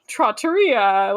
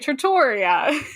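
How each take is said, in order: First: It is said with a worldly, Italian-sounding accent. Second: It is said with a regional American accent. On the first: The speaker calls it right. "like a you know worldly person" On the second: The speaker calls it wrong. "with my weird Pennsylvania, Baltimore, New York accent"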